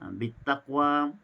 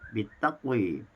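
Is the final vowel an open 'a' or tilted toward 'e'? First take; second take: open a; tilted e. First: The final vowel is an open a. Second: The final vowel is tilted toward e.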